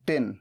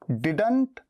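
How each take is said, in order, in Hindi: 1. अंतिम t ध्वनि छोड़ी जाती है। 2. अंतिम t ध्वनि बोली जाती है।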